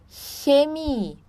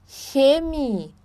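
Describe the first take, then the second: Both takes have the same delivery.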